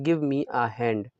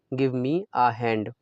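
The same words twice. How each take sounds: The two takes are said the same way.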